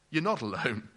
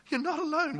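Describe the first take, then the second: First: Said in the usual way. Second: "You're not alone" said much higher through a laugh. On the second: Shown as a demonstration. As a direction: laugh as you repeat it, pitched up. Repeated line with laugh.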